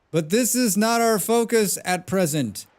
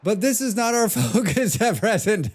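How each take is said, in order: First: Higher-pitched, hammed-up old man. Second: Put-on high-pitched little boy, breaking into laughter; small boy voice. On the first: Streamer showing off a character voice for game dialogue, old man voice. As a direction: put on an old man's voice for the dialogue. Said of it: "That's my old man voice". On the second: Streamer demoing a voice on game dialogue, laughing small boy voice. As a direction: pipe up like a small boy, then crack up. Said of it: "Let me do my small boy voice". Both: Shown as a demonstration.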